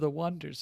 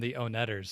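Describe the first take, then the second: First: The name is said like 'wonders'. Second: The name is said as oh-NET-ers. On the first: This is how the band meant it. The speaker calls it right. "No, we're the Wonders" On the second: This is the misreading everyone used. The speaker calls it wrong. "Everybody's calling them the Onetters"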